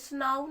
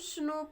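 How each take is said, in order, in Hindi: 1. स्वर 'ow' जैसा सुनाई देता है। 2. स्वर 'oh' जैसा सुनाई देता है। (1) "स्नाउ नहीं पढ़ेंगे" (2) "इसको हम स्नो पढ़ेंगे"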